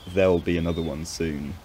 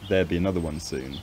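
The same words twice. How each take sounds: First: The L in there'll is clearly pronounced. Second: The L in there'll becomes a vowel or disappears.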